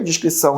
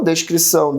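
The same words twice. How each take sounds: First: Descrição said with dis, discrição meaning discretion; descrição as discreet reserve, diʃkɾisɐw; dis pronunciation. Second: Descrição said with des, like descrever; descrição as in describing, deʃkɾisɐw̃; des pronunciation. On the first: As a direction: start descrição with dis, diʃ, not des. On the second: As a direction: open des at the start of descrição, deʃ. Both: Shown as a demonstration.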